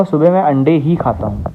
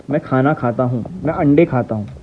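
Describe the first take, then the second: First: ही in "अंडे ही खाता हूँ" given extra weight; stress on ही. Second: Said in the usual way. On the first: Shown as a demonstration. Teacher showing students the stress on ही. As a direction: lean on the word ही to show only eggs. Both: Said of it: "तो भाई शब्द जोर लग रहा है".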